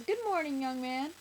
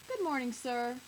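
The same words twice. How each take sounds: First: High, loud, cheerful greeting; cheery doorman. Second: Lightly voiced doorman, slightly higher; a mild, courteous greeting; polite doorman. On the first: Doorman greeting the little boy, cheery. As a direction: greet a child brightly, pitched up. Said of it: "their doorman says". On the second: Doorman greeting the unhappy old man, mildly polite. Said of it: "the doorman says". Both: A narrator's reading.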